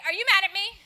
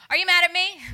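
First: Higher, louder anxious question; a hint of an anxious friend; worried friend. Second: Much louder, pressing the question; louder insistent asking friend; insistent repeat. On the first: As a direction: friend asking nervously if she's mad. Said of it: "friends that will come up to me and say". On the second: Retold or imitated. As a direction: friend demanding an answer this time. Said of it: "Yeah, okay".

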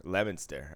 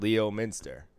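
First: "Leominster" said lem-in-ster; local pronunciation. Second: "Leominster" said lee-oh-min-ster, as written; as spelled. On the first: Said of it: "It's Leominster". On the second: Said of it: "but it's spelled Leominster". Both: Shown as a demonstration.

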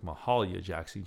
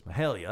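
First: "Mahalia" said with a flat a, mə-HAH-lia; "Mahalia" with the middle a as in father; mispronounced Mahalia. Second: "Mahalia" with the middle a as in hail, mə-HAIL-ya; "Mahalia" said firmly, the a like in hail; correct pronunciation. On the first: Mispronouncing "Mahalia" for the resident teaching him. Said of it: "I was mispronouncing". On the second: Resident correcting his "Mahalia", a firm fix. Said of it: "She goes". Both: Retold or imitated.

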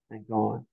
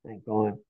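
Both takes have the same delivery.

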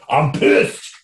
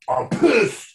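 First: Whispered angry quote; mock whispered rage. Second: High, loud, angry quote; hammed-up pitcher fuming; mock angry outburst. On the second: Pitcher quoted to reporters, high and loud. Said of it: "he certainly said".

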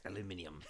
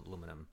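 First: "Aluminium" said the British way, five syllables, al-yoo-MIN-ee-um. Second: "aluminum" said the American way, four syllables, a-LOO-mi-num. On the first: Co-host showing the British word she prefers, "Aluminium" in five syllables. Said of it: "I do prefer the word aluminium". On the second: Co-host setting the American word against the British one, "aluminum" in four syllables. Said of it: "to alum-, aluminum". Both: Shown as a demonstration.

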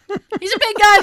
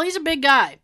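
First: Higher, louder "big guy"; emphatic repeat. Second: Said in the usual way. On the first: Shown as a demonstration. Telling the host about the Grinch, higher and louder. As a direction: hammer home how huge he is. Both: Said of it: "repeats the phrase for effect".

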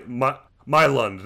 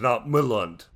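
First: Myland said with the weight on My, slowly; stress on My. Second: Myland with the weight shifted onto the L; stress on the L. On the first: Correcting a cohost on Myland, stress on My. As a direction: lean on the My in Myland, slow and careful. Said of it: "the emphasis is on the, the Y". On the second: Imitating the cohost's Myland, stress on the L. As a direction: mimic the wrong Myland, hitting the L. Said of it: "you're putting the emphasis on the L". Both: Shown as a demonstration.

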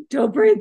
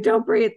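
First: Don't breathe, choked, higher and much louder; holding back sobs. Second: Don't breathe, choked and louder at the same pitch; holding back sobs. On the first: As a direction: gasp it out while fighting tears. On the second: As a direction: repeat it, still fighting tears. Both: Retold or imitated.

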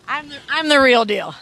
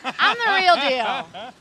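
First: Louder, firm and falling; emphatic boast. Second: Slow, stretched boast ending on a rise; drawn-out boast. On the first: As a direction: plant it hard, no doubt left. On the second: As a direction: savour each word, let it lift at the end. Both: Real, not acted.

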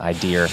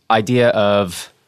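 First: Idea said as "idear" with an added R; Boston accent on "idea", R tacked on the end. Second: Said in the usual way. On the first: Shown as a demonstration. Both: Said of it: "that's my Boston accent".

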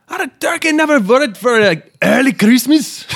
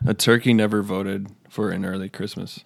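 First: Slow, loud, high mock-Irish accent; hammed-up Irish accent that misses the mark; bad Irish accent. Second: Said in the usual way. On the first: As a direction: badly fake an Irish accent, drawn out and shouted high. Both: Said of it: "I don't even think that's an accent".

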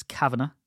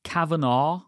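First: "Kavanagh" as KAV-a-nuh; short unstressed "nuh" ending on "Kavanagh"; correct pronunciation. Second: "Kavanaugh" ending in a long NAW; common mispronunciation. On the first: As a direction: say "Kavanagh" without the "naw". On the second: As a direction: draw out the end of "Kavanaugh" as "naw". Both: Shown as a demonstration. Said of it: "names that are mispronounced".

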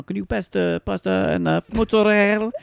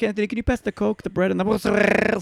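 First: High-pitched imitation, Italian on the food words; showy Italian. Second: High sister voice, mangled Italian mozzarella; over-the-top Italian. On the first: Sisters at dinner one-upping each other, showy Italian. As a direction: show off your Italian on the last word. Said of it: "one-up each other with how Italian". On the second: Acted. Third sister asking Anthony at dinner, over-the-top Italian. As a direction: outdo the last sister with an absurd Italian ending. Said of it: "the third sister's like".

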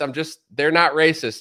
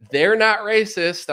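First: Mock insistence repeated. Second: Mock insistence. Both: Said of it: "just to be like".

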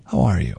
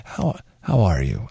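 First: Mock sincere greeting. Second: Slow, low earnest how are you; mock sincere greeting. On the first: Imitating Glenn's heartfelt greeting to a coworker. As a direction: try to sound deeply genuine. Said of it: "I can't even do it". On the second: Imitating Glenn greeting someone, slow and sincere. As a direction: attempt a genuinely caring tone. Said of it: "I can't even fake it".

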